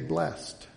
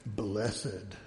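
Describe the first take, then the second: First: The word is said as one syllable. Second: The word is said as two syllables. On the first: It is the ordinary pronunciation by the rules of English. The speaker calls it right. "they really don't pronounce it as it should be pronounced according to the rules" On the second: It makes the word sound more religious. The speaker calls it wrong. "They make it even more religious sounding by saying blessed"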